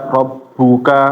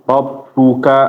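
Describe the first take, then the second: No difference in how they are said.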